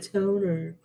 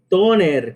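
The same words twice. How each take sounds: First: It is said with English pronunciation. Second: It is said with Spanish pronunciation. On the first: It is the original foreign word. "la adaptación de toner" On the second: It is the adapted loanword. "Toner, que es la adaptación"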